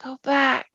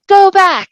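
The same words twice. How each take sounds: First: Soft, higher, spent plea; a hobbit with no strength left, speaking softly; whispered. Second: High, loud desperate cry; a young hobbit crying out high and loud; cried out. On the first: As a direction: barely get the words out. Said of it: "he whispered". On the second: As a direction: shout them back with the last of his nerve. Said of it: "he cried". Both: Acted.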